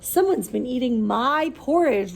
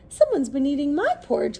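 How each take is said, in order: First: It is said in a loud roar. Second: It is said in a crying voice.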